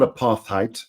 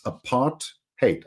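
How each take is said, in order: First: The last syllable does not sound like 'hate'. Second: The last syllable sounds like 'hate'. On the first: The speaker calls it wrong. "it's not apartheid" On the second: The speaker calls it right. "it's apart hate"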